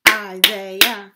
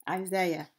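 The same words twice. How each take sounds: First: Isaiah in three loud beats, I-sai-ah; Isaiah broken into three counted parts; syllable by syllable. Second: Said in the usual way. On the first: Shown as a demonstration. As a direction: punch out each syllable of Isaiah. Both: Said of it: "we have three syllable word".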